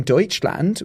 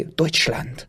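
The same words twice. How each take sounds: First: Said in the usual way. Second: "Deutschland" said in a German accent with a short crisp "lant"; "Deutschland" as a native German would say it; German pronunciation. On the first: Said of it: "we're capable of saying". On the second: Shown as a demonstration. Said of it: "We don't have to say".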